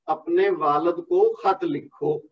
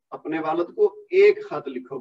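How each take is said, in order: First: Said in the usual way. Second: ایک pressed and held a little longer; corrected line with ایک singled out; stress on ایک. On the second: Shown as a demonstration. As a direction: lean on the word ایک to mark it indefinite. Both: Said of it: "نکرہ استعمال ہوا ہے".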